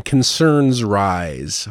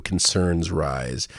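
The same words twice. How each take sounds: First: "Concerns rise." drawn out very slowly, mock ominous; mocking headline read. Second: "concerns rise." lower and very slow, contemptuous; sneering repeat. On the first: Vlogger mocking a weaselly news headline, slow mock-dramatic read. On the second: Retold or imitated. Vlogger repeating the headline to curse at it, sneering. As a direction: spit back "concerns rise." with disgust, slowly. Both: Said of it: "this is a weaselly headline".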